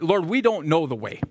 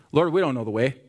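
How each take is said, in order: First: "we" vurgulu, hafif vurgu; stress on we. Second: Said in the usual way. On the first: Shown as a demonstration. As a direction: lean on "we" in "we don't know". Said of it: "there's emphasis there that he didn't say, but". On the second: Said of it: "there's emphasis there that he didn't say".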